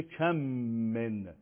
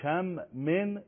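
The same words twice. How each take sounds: First: «کم من» run together with a held m; merged doubled mim. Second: Said in the usual way. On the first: Shown as a demonstration. Teacher showing what the separate words become, mim merged and held. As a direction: join «کم» to «من» on one long hum.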